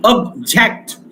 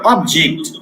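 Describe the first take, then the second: First: object stressed on the second syllable, first reduced; क्रियापद: दुसऱ्या अक्षरावर आघात; verb stress on second syllable. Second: object stressed on ऑ, first syllable; संज्ञा: ऑ वर आघात; noun stress on first syllable. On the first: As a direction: say object as the verb, weight on जेक्ट. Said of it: "verb म्हणून pronunciation". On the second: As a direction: say object with weight on ऑ. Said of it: "ऑ वर stress दिलेला आहे". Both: Shown as a demonstration.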